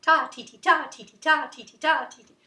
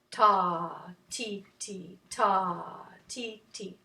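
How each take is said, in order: First: Quick, loud rhythmic chant; rapid-fire ta-ti-ti, louder; fast tempo. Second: Unhurried, low rhythm syllables; slow tempo. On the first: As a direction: rattle off the beats, punching each 'ta'. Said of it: "or a fast tempo". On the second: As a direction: spread the beats wide apart. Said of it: "at a slow tempo". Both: Shown as a demonstration.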